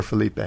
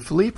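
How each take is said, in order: First: Felipe said as fuh-LEE-pay; three-syllable pronunciation. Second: Felipe said as fuh-LEEP; two-syllable pronunciation. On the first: Host checking a surfer's name, Felipe as fuh-LEE-pay. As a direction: end Felipe on a clear "pay". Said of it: "I've heard it both ways". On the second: Host checking a surfer's name, Felipe as fuh-LEEP. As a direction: say Felipe with a silent final e. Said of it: "Is it Felipe or Felipe?". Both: Shown as a demonstration.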